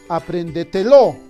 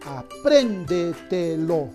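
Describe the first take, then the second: First: The stress falls on the final syllable, lo. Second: The stress falls on the syllable pren. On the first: The speaker calls it wrong. "Quizás sea aguda" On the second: The speaker calls it right. "La mayor fuerza de voz está en la sílaba pren"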